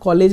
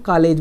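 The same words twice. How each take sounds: First: The first vowel sounds like 'o'. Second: The first vowel sounds like 'aa'. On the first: "वहाँ कॉलेज नहीं बोलते" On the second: "वहाँ आ हो जाता है"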